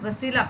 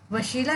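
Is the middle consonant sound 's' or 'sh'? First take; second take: s; sh. First: The middle consonant is a plain 's' sound. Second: The middle consonant is an 'sh' sound. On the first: The speaker calls it right. "यहाँ पे छोटी सीन है तो इसे वसीला पढ़ेंगे" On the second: The speaker calls it wrong. "वशीला नहीं पढ़ेंगे"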